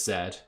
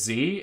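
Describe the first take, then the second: First: The letter is said the non-American way, zed. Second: The letter is said the American way, zee.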